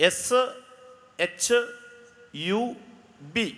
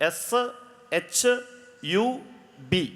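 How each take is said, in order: No difference in how they are said.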